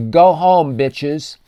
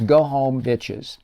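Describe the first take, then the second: First: A loud, raised-voice jab at the fans; shouted taunt. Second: Said in the usual way. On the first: Retold or imitated. Quoting Luka taunting Timberwolves fans, shouted taunt. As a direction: bark it at the crowd, mocking. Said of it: "he says, and I quote". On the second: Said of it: "That's Luka".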